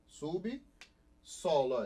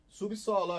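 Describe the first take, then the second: First: "Subsolo" very slow, split as sub, pause, solo; "Subsolo" pulled apart to show the syllable division; separated syllables. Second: Said in the usual way. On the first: Shown as a demonstration. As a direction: break "Subsolo" after sub with a clear gap. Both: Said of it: "Em sílabas diferentes".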